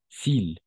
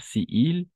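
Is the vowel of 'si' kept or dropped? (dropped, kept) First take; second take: dropped; kept. First: The vowel of si is dropped, one syllable. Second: Both vowels are said, as two separate words. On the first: The speaker calls it right. "Ahí hacemos la elisión" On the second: The speaker calls it wrong. "l'élision est nécessaire"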